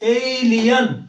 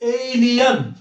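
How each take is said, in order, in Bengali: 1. শেষ অংশটি 'yan' এর মতো শোনায়। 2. শেষ অংশটি 'yan' এর মতো শোনায়।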